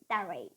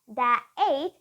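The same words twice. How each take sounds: First: The words are joined with a linking R sound. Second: The words are said separately without a linking R. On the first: The speaker calls it right. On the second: The speaker calls it wrong.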